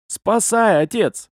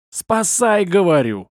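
First: High plea falling away; imploring call for help; pleading. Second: High yell dropping on the last word; exasperated, high-pitched cry for help. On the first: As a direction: beg an old man for rescue. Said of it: "когда взмолился". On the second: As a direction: holler it impatiently. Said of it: "заорал я". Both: A narrator's reading.

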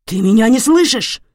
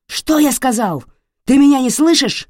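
First: Loud, high, threatening question; angry yell. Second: Loud, much higher roar; furious yell. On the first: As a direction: shout it right into her face. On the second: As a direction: explode at her. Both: Acted. Father yelling at wife.

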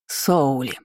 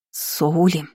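First: Demanding ghostly aunt calling a name. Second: Name said with understated menace; stormy undertone. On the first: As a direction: summon with quiet insistence. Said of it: "требовательно воскликнул призрак". (требовательный оклик) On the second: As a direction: warn by name alone. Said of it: "В голосе Лины звучали грозовые нотки". (с грозовыми нотками) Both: A narrator's reading.

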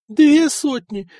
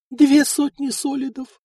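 First: Higher, louder, slow outcry on две; outraged exclaim. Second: A sighing lament pitched high. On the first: Wife exclaims over two hundred solidi given away. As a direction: cry out the sum in disbelief. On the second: Wife sighs over the money lost. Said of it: "вздохнула Эльфрида". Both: A narrator's reading.

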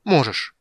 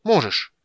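First: Loud, higher furious cry. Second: Louder, even higher insistence; furious repeat. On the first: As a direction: fling it at him in fury. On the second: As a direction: hammer it home harder. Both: A narrator's reading. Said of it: "Тика была сама ярость".

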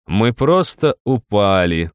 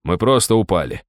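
First: Slow mocking echo of his words; mocking Rob's lie to the guard, slow and snarling; bared-teeth mimicry. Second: Said in the usual way. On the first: A narrator's reading. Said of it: "оскалился я".

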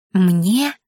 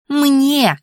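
First: Wheezy, strained question; croaking. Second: High-pitched indignant cry; wailing. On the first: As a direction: croak it out in disbelief. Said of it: "просипела я". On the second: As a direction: wail it back high and insistent. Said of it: "заголосила Анфиса". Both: A narrator's reading.

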